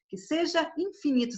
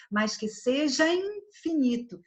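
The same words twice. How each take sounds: First: "que seja infinito" with a clear break between "seja" and "infinito"; fala separadinha. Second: "mas que seja infinito" with "ja" and "in" fused into "jain"; fala emendada. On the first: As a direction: keep the vowels apart in "seja / infinito", higher pitch. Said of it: "Você não fala separadinho". ("que seja infinito" separadinho, sem emendar) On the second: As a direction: link "seja infinito" in one breath, raised pitch. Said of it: "Quando a gente fala naturalmente". ("mas que seja infinito" emendado, como "se-jain-finito") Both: Shown as a demonstration.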